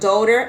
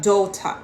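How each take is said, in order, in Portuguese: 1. É dito com sotaque americano. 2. É dito com um sotaque britânico padrão. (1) "no americano vai falar daughter" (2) "aqui vai falar daughter"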